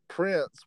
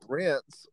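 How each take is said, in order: First: The word begins with a P sound. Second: The word begins without a P sound.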